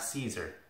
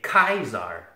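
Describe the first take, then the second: First: The word begins with a soft S sound. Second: The word begins with a hard K sound. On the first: The speaker calls it wrong. "not Caesar" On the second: The speaker calls it right. "You say Kaiser"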